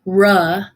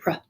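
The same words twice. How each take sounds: First: The r sound is drawn out long. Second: The r sound is clipped and short. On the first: The speaker calls it wrong. "It is also not R" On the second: The speaker calls it right. "So you want to make it clipped and short"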